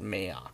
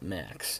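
First: The name is said as May-ok. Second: The name is said like the plain word Max. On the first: The speaker calls it right. "you don't naturally tend to call it Mayok" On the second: The speaker calls it wrong. "mispronounce it and call it Max"

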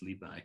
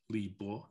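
First: The second syllable is said as 'bai'. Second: The second syllable is said as 'bo'. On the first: This is the modern, now standard way to say the name. "Rather than Li Bo, it's Li Bai" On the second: This is the older, polite way to say the name. "it used to have what they called a reading pronunciation. The polite way to refer to him was Bo"

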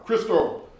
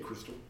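First: The name is said loudly. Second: The name is said at normal volume.

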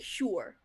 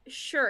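First: The vowel is a rounded ooh sound. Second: The vowel is a flat U sound. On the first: "you say sure" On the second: "I say, like, sure"

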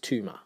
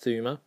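First: The name starts with a hard 't' sound. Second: The name starts with a soft 'th' sound. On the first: This is a playful way of saying the name. The speaker calls it wrong. "I do enjoy saying it as" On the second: This is how the family says the name. The speaker calls it right. "correctly pronounced"

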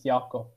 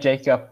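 First: The name is said with a Norwegian pronunciation. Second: The name is said with an English pronunciation. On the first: "but in Norwegian it's Jakob" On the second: "because it's the English pronunciation"

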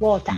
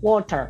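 First: It is said in an Australian accent. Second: It is said in a British accent.

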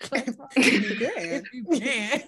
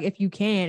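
First: It is said in a sarcastic, mocking tone. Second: It is said in a plain, sincere tone. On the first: The doubt in the request is being mocked. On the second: The request is genuinely hopeful.

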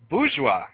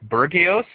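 First: The word is pronounced in the standard way. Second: The word is pronounced in a garbled way. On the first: The speaker calls it right. "It's bourgeois" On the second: The speaker calls it wrong. "I'm totally not going to pronounce this right"

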